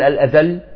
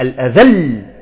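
First: The final doubled consonant is said plainly. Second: The final doubled consonant is pressed with force. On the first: The speaker calls it wrong. "ما نقول الأذل" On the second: The speaker calls it right. "لا الأذل، تعطي قوة"

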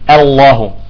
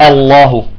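No difference in how they are said.

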